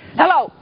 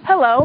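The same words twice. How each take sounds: First: The greeting sounds harsh and disrespectful. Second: The greeting sounds warm and respectful. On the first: The listener would be startled and put off. The speaker calls it wrong. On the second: The listener would respond with a smile. The speaker calls it right.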